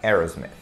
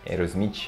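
First: It is said with an English pronunciation. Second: It is said with a Brazilian Portuguese pronunciation. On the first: This is how it is said in English. "Mas em inglês você vai pronunciar o nome da banda assim" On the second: This is how people in Brazil say it. "A galera aqui no Brasil chama a banda assim"

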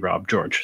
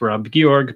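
First: The surname is said the North American way. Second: The surname is said in its original pronunciation. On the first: This is how people in Canada and the US say it. "in Canada, US, they say" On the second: This is the name's proper pronunciation. "It's actually pronounced"

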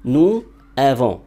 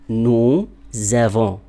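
First: The final s of nous stays silent. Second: A z sound links nous to avons. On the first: The speaker calls it wrong. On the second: The speaker calls it right.

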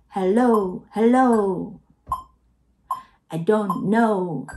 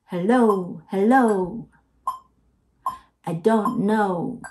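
Both takes have the same delivery.

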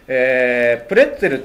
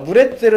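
First: The word begins with a p sound. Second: The word begins with a b sound. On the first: This is the English pronunciation. "プレッツェルっていうのがですね、どうやら英語発言で" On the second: This is the German-accented pronunciation. "ブレッツェルっていうのがドイツ語なまり"

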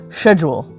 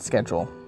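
First: The word is said in a British accent. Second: The word is said in a non-British accent.

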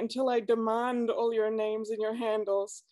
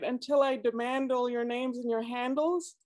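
First: Demand and handles have different vowels. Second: Demand and handles share the same vowel.

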